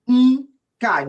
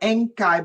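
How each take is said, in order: First: The name starts directly with an n sound. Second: The name starts with a vowel before the n. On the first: The speaker calls it right. "Nkai, not Enkai, but Nkai" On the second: The speaker calls it wrong. "not Enkai"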